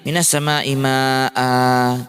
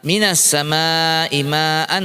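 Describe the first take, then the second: First: The phrase ends with a long a vowel. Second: The phrase ends with an n sound. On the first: The reader stops on this word. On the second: The reader continues without stopping.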